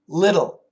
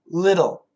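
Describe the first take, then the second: First: The middle T is flapped, like a D. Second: The middle T is flapped, like a D.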